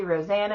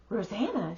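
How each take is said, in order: First: Said in the usual way. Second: ROSANNA echoed with a swooping rise and fall; retold surprised echo of ROSANNA, drawn into a question; surprised recognition. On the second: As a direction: repeat ROSANNA as if you know her, pitch leaping mid-word. Friend echoes name in recognition.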